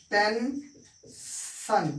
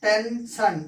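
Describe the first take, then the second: First: tension stretched very slowly, each syllable held; slow drawn-out demo. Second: Said in the usual way. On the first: Shown as a demonstration. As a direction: spell out tension slowly for the class, ten-shan. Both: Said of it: "एक example हम देखते हैं".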